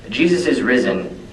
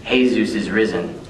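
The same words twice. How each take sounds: First: Said in the usual way. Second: "Jesus" said the Spanish way, hay-ZOOS; Spanish pronunciation. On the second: Shown as a demonstration. Poet echoing his line, "Jesus" pronounced hay-ZOOS as in Spanish. Same name in Spanish form.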